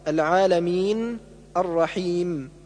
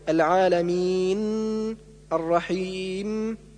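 First: The final nasal sound is kept short. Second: The final nasal sound is held long. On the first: The speaker calls it right. "والصواب" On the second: The speaker calls it wrong. "إطالة الغنة لدى الوقف"

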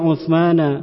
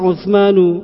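First: The word ends with an 'a' vowel. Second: The word ends with a 'u' vowel. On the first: The name is treated as an object. The speaker calls it wrong. "kok tidak Uthmana" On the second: The name is the subject of kana. The speaker calls it right. "Kenapa dibaca Uthmanu"

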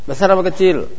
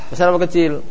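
The two takes are said the same way.

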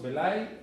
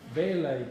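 First: The stress is on the last syllable. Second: The stress is on the first syllable. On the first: The speaker calls it wrong. "cambiamos el acento" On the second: The speaker calls it right. "porque el acento es grave"

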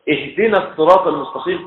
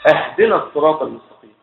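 First: The first word begins with ih. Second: The first word begins with ah. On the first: Asking to be guided. The speaker calls it right. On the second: Asking to be given something as a gift. The speaker calls it wrong.

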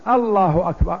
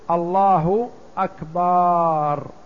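First: The opening vowel is drawn out long. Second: The final syllable's vowel is drawn out long. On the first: It asks whether God is greatest. "لأن الذي يمد الهمزة أولا كأنه يستفهم" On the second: It turns the word into a plural meaning drums. "يمد الباء ويأتي بألف بعدها"

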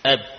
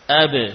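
First: The final b stops dead with closed lips. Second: The final b is released with a bouncing echo. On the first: The letter is heavy to say and hard to identify. The speaker calls it wrong. "Kalau kita biarkan bibir menempel saat kita mengucapkan ba, suara berhenti" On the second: The letter is easy to say and clearly heard. The speaker calls it right. "Mudah ketika kita mendatangkan sifat qalqalah"

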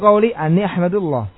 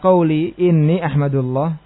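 First: The middle word begins with an a vowel. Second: The middle word begins with an i vowel.

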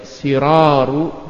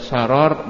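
First: The first vowel is a front 'i' sound. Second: The first vowel is an open 'a' sound. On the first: "bisa dibaca siraru" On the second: "bisa dibaca sarar"

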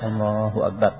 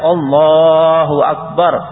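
First: It is said softly and quietly. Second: It is said loudly and clearly. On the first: Those behind should not hear it. "jadi pelan. Sekiranya makmum belakang tidak dengar" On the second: Everyone behind should hear it. "Agar yang di belakang makmum tahu semuanya kalau imam sudah takbir"

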